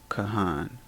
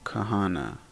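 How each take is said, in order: First: The word ends on a consonant sound. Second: The word ends with an added vowel sound. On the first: The speaker calls it right. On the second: The speaker calls it wrong.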